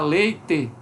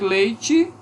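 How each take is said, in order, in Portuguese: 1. A vogal final é um som 'eh' pleno. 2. A vogal final é reduzida a um som 'ee'.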